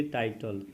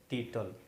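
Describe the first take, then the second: First: टाइटल said as written, "tai-tal" with the long ai; spelling pronunciation. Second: टीटल said "tee-tal" with a long ee, not tai; correct pronunciation. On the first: Teacher showing how the word is written, टाइटल read as spelled. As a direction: sound out टाइटल letter by letter as spelled. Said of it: "English में लिखेंगे टाइटल". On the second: Teacher telling students how to read the word, टीटल as "tee-tal". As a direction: give टीटल its real spoken form, "tee-tal". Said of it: "लेकिन इसको पढ़ेंगे टीटल". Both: Shown as a demonstration.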